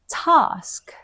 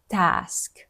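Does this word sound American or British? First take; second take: British; American. First: The vowel is a long, open ah sound. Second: The vowel is a flat, front a sound. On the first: The speaker calls it right. "They say task" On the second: The speaker calls it wrong. "not task"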